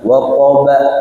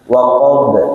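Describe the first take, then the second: First: It ends with an added a vowel after b. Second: It ends with a short bounce and no vowel. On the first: The speaker calls it wrong. "tidak boleh terkesan dia itu seperti berharokat fathah" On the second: The speaker calls it right. "ini harus memantul"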